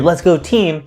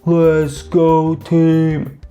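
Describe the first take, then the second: First: It is said at normal cheering speed. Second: It is drawn out in slow motion.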